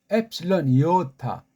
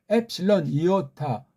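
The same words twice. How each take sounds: The two takes are said the same way.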